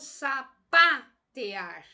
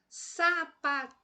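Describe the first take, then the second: First: The stress is on the syllable pa. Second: The stress is on the syllable te. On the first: "vamos colocar uma pronúncia mais forte na sílaba pá" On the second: "eu vou forçar aí o T"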